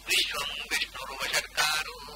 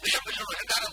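First: Each syllable is spoken slowly and distinctly. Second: The syllables are rushed and run together quickly. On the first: The speaker calls it right. "ಇದು ಅದನ್ನು ಹೇಳಬೇಕಾದ speed" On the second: The speaker calls it wrong. "Fast ಆಗಿ ಹೇಳುವುದರಿಂದ ಎಂದೂ ಆ ಮಂತ್ರ ಆಗುತ್ತಿಲ್ಲ"

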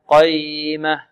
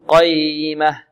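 No difference in how they are said.

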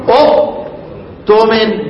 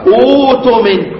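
First: A glottal stop closes the first syllable. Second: The first syllable has a long u vowel. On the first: This is the underlying original form. "اصل الكلام اقول ايه؟" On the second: This is the actual form after the change. "تبدل الثانية حرف مد من جنس حركة ما قبلها"

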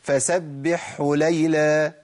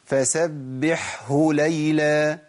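First: The h sound merges into the preceding ḥ. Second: The h sound after the ḥ stays distinct. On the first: The speaker calls it wrong. "اسمع الخطا بقى" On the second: The speaker calls it right. "انا جبتها كده مظبوط؟"

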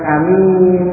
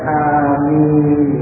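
First: The first vowel is short, the second long. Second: Both vowels are long with a single m. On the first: The speaker calls it wrong. "dengan pendek alifnya dan panjang ninya, ini juga salah" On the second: The speaker calls it right. "diringankan ninnya dan dipanjangkan alif maupun ninnya"

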